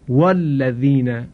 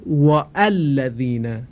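First: The glottal stop before alladhina is dropped. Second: The glottal stop before alladhina is pronounced. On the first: The speaker calls it right. "همزه وصل خوانده نمیشه" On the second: The speaker calls it wrong. "شما هیچ قاری قرآنی ندیدید مثلا بخونه والذین"

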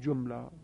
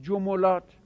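First: The m is followed by no vowel. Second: The m is followed by a u vowel. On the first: "میتونید به سکون بخونید" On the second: "عین الفعلش در حرکت تبعیت از فاعل فعل بکند"

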